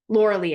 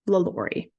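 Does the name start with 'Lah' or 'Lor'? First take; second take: Lor; Lah. First: The name is said like 'Laura Lee'. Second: The name is said like 'Lah-lor-ee'. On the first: The speaker calls it wrong. "you said Laura Lee. Laura Lee, I did" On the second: The speaker calls it right. "So it's Lalaurie"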